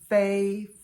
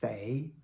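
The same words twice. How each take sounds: First: It is said with the first tone. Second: It is said with the second tone.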